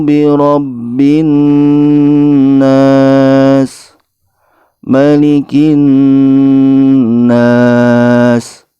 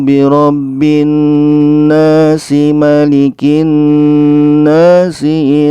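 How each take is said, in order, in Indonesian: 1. Ada berhenti setelah nas sebelum malikin. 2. Nas tersambung ke malikin dengan tambahan bunyi i.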